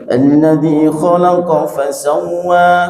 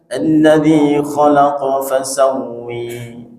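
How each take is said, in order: First: The final vowel is an open a. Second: The final vowel is tilted toward e.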